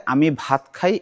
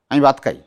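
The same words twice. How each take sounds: First: Said in the usual way. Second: "আমি ভাত খাই" in a Mymensingh accent, ভাত and খাই unaspirated as bat and kai; a light Mymensingh dialect demo. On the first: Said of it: "এটাকে বলবে". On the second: Shown as a demonstration. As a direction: say it with the Mymensingh village tune. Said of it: "এই tone".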